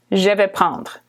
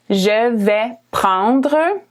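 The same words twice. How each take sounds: First: Said in the usual way. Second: "Je vais prendre" drawn out slowly; slow model phrase. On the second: Shown as a demonstration. Teacher to learners ordering food, slow model. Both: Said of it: "in French, you're gonna say".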